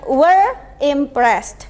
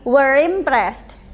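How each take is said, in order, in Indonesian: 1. Kedua kata itu diucapkan terpisah, tidak disambung. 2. Kedua kata itu disambung dengan lancar. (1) "bukan were impressed" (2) "tapi were impressed. ... dirangkai, disambung"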